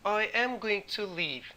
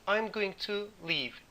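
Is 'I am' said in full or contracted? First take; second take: full; contracted. First: 'I am' is said as two full words. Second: 'I am' is shortened to one syllable, 'I'm'.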